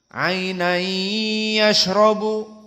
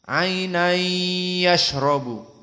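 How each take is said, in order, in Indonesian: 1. Bunyi gabungan itu berdengung dan ditahan dua ketukan. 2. Bunyi gabungan itu berdengung dan ditahan dua ketukan.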